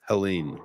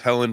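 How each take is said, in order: First: The name ends with a long 'een' sound. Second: The name ends with a short 'en' sound. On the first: This is how it is officially pronounced. The speaker calls it right. "they were actually pronouncing it Helene" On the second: This is how many people assumed it went. The speaker calls it wrong. "a lot of us thought it was Helen"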